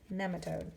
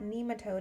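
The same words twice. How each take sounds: First: The first E is a short vowel. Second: The first E is a long vowel. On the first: The speaker calls it right. "instead of having the E be a long E, it's a short E" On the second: The speaker calls it wrong. "I've been saying it wrong. It's not nematode"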